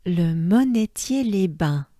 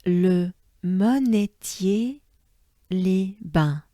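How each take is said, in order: First: Le monetier les bains said quickly, the French way; fluent French Le monetier; native French. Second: Monetier slow with a rising end, then les bains; slow teaching read; careful pronunciation. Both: Shown as a demonstration. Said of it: "I'll say it as a French person".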